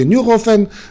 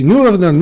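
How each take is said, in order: First: The name is said with a French pronunciation. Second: The name is said with an English pronunciation. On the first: "по-французски" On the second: "по-английски"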